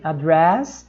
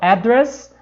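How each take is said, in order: First: The stress is on the last syllable. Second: The stress is on the first syllable.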